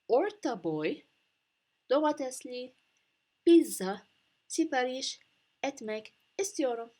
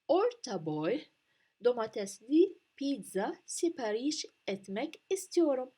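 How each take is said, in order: First: The sentence is spoken slowly. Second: The sentence is spoken at a normal pace.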